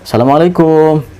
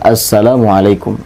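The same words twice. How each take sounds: First: The final syllable kum is drawn out long. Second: The final syllable kum is kept short. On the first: The speaker calls it wrong. "Juga yang salah, ... Kum itu enggak panjang ya" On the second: The speaker calls it right. "Yang benar"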